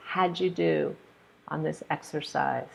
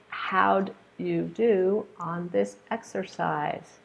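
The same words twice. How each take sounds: First: "how'd you" joined as howju; reduced how'd you. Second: Said in the usual way. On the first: Shown as a demonstration. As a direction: link with a j sound.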